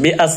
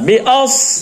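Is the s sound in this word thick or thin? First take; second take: thin; thick. First: The s sound is light and thin. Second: The s sound is heavy and thick. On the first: The speaker calls it wrong. "B আস হয়ে গেছে, বি আস না" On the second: The speaker calls it right. "সদের উচ্চারণ মোটা হবে"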